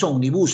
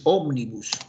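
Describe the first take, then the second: First: The stress is not on the first syllable. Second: The stress is on the first syllable. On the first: The speaker calls it wrong. "No es omnibus" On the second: The speaker calls it right. "Es omnibus. Ahí está"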